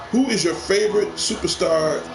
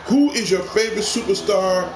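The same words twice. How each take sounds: The two takes are said the same way.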